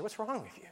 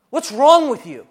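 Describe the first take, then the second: First: "What's wrong with you?" murmured very softly to oneself; hushed self-reproach on "What's wrong with you?"; inner self-accusation. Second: "What's wrong with you?" shouted high and loud, leaning on "wrong"; loud accusing "What's wrong with you?" stressed on "wrong"; accuser yelling. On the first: Retold or imitated. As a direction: ask "What's wrong with you?" under the breath in shame. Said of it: "that's how I think". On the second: Acted. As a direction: scream "What's wrong with you?" in their face with contempt. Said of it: "is screaming at your face".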